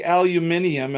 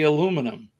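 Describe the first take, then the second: First: "aluminium" with an extra syllable, "min-ee-um"; British pronunciation. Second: "aluminum" in four syllables, stressed on LOO; American pronunciation. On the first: Retold or imitated. Host quoting how co-host says it, British "aluminium". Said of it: "you say aluminium". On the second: Shown as a demonstration. Host showing own way to co-host, American "aluminum". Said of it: "and I say aluminum".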